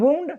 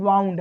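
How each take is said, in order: First: The vowel sounds like 'oo' in 'moon'. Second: The vowel sounds like 'ow' in 'cow'. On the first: The speaker calls it wrong. "कुछ लोग इसे वुंड पढ़ देते हैं लेकिन वुंड नहीं है" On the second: The speaker calls it right. "ये क्या है वाउंड है"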